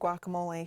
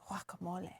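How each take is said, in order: First: It begins with a hard G sound. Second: It begins with a W sound. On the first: The speaker calls it wrong. "We butcher that" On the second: The speaker calls it right. "G U A is supposed to be pronounced like a W"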